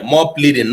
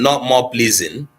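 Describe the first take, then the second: First: "pleading" said with a clear d sound, plee-ding; correct word pleading. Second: "pleasing" said with a z sound, plee-zing, as the word to avoid; contrasting wrong word pleasing. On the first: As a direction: say "pleading" carefully, with a crisp d in the middle. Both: Shown as a demonstration.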